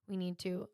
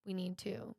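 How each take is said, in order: Both takes have the same delivery.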